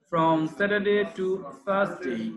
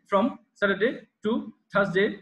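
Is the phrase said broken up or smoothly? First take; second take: smoothly; broken up. First: It is said as one smooth chunk without pauses. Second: It is said in separate pieces with breaks between. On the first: The speaker calls it right. "এখানে কোনো break break দেওয়া যাবে না, এখানে দম ছাড়াও যাবে না।" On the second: The speaker calls it wrong. "Not এমন"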